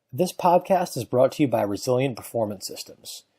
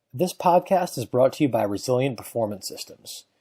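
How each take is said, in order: The two takes are said the same way.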